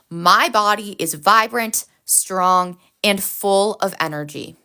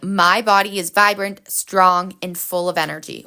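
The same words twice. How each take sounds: First: It is said with strong feeling and energy. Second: It is said in a plain, calm way.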